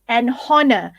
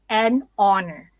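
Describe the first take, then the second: First: The h sound at the word start is pronounced. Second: The h sound at the word start is silent. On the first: The speaker calls it wrong. "You don't say an honor" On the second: The speaker calls it right. "You would say an honor"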